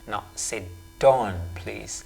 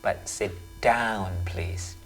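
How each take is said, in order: First: The vowel in down is a plain vowel. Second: The vowel in down is the au diphthong. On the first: The speaker calls it wrong. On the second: The speaker calls it right.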